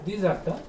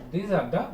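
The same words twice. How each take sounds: The two takes are said the same way.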